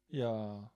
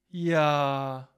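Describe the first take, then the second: First: Low, sinking, drawn-out "Ja"; demonstrated sad yes. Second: Louder, long-held pleased "Ja"; demonstrated happy yes. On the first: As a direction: sigh the word downward, sorrowfully. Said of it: "Das heißt traurig". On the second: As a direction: stretch out "Ja" with delight. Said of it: "glücklich". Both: Shown as a demonstration.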